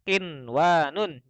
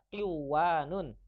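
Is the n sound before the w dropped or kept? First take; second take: kept; dropped. First: The n sound is pronounced clearly. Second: The n sound is dropped and merged. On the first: The speaker calls it right. "dibacanya qinwanun. Jadi jelas" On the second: The speaker calls it wrong. "gak dibaca qiwanun"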